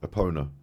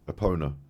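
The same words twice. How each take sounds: First: The middle part sounds like the word pony. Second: The same.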